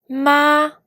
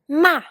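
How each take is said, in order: First: The syllable carries the first tone. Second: The syllable carries the fourth tone. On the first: "pour le premier ton" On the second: "pour le quatrième ton"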